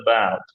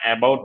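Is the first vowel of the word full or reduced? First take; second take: reduced; full. First: The first vowel is a weak, barely touched schwa. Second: The first vowel is a full open vowel. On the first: The speaker calls it right. "আমি বলছি" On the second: The speaker calls it wrong. "about বা অ্যাবাউট বলছি না"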